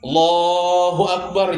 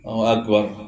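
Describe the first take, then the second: First: The final sounds of the phrase are dropped. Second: The opening word of the phrase is dropped. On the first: "Kurang ujungnya" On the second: "mana Allahnya?"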